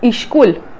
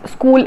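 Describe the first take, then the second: First: An extra vowel is added before the s. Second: It is said plainly with no added vowel. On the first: "some dialects, school is pronounced as ishkul" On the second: "school is pronounced as"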